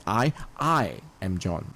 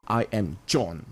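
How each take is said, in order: First: "I" said long and prominent, then dropping away; slow, with the emphasis on "I"; stress on I. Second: Slow, with "John" set apart and emphasized; "I am" lighter, weight on "John"; stress on John. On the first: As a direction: lean on "I", let "am John" fall. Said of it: "You can focus on". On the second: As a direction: land firmly on "John". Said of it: "you could emphasize on the name". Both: Shown as a demonstration.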